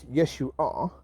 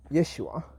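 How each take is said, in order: First: The name is said slowly, drawn out. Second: The name is said at a normal pace.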